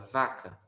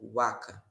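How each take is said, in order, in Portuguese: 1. A palavra começa com som de v. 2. A palavra começa com som de w. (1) "a palavra vaca" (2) "o V como U"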